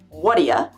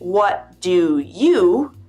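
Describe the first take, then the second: First: The words run together into a reduced 'whatya'. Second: Each of the three words is said separately and fully. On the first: "you hear either what'ya" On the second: "you read"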